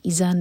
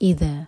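First: The middle consonant sounds like a z. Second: The middle consonant sounds like th in 'this'. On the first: The speaker calls it wrong. "ذال کو زا کی آواز نہیں دینا, اذا نہیں پڑھ سکتے اس کو" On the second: The speaker calls it right. "یہ ذال"

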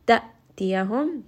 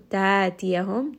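First: The first syllable ends in an abrupt throat stop. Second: The first vowel is stretched long with no stop. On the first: "this is with Hamza and Sukun" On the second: "two-count med"

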